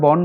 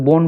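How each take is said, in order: First: বন as "bɔn", open ɔ; correct open vowel. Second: বন mispronounced "bon" with rounded o; wrong o vowel. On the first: Teacher telling students what we say, open-vowel বন. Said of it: "আমরা বন বলি". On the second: Teacher rejecting a form for students, o-vowel বন. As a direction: close the vowel of বন to o. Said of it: "বলি না". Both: Shown as a demonstration.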